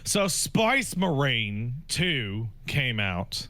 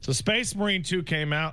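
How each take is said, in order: First: 'Space Marine' is said in a put-on Cockney accent. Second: 'Space Marine' is said in the speaker's plain accent.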